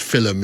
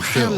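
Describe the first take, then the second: First: The word is said in an Irish accent. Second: The word is said in a standard accent. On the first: "I've got a friend from Ireland, and he says uh" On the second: "instead of"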